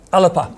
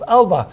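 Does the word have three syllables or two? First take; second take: three; two. First: The word is said with three syllables. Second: The word is said with two syllables.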